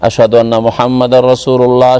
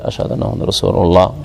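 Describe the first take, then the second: First: The phrase is called out loudly. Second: The phrase is said with moderate, restrained volume. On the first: "তারপরে তখন জোরে" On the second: "একটু আওয়াজ করে কিন্তু খুব জোরে নয়"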